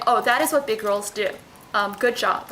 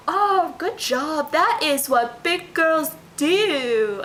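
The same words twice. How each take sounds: First: Said in the usual way. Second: Put-on high, slow, sing-song baby talk. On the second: Shown as a demonstration. Mom praising her toddler in her weird baby talk accent. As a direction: coo it slowly and higher, like to a toddler. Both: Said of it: "So the way I'll say it is like".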